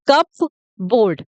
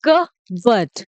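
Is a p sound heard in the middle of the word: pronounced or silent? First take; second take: pronounced; silent. First: The p is pronounced, like cup plus board. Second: The p is silent, said like cubberd. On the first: The speaker calls it wrong. "ये गलत pronunciation है।" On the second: The speaker calls it right. "जो पी है वो silent रहेगा"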